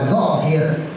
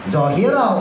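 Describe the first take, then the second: First: The word ends on a bare 'r' consonant. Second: The word ends with a final 'o' vowel. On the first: The speaker calls it wrong. "jangan wa zohir" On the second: The speaker calls it right. "bacanya zohiro"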